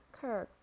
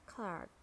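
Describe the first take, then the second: First: "clerk" said clurk, American R; American "clerk", rhyme it with work; American accent. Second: "clerk" said clahk, British style; British "clerk", open ah in the middle; British accent. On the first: Teacher models clerk for learners, American accent. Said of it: "R in American English". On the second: Teacher models clerk for learners, British accent. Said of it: "in British English". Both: Shown as a demonstration.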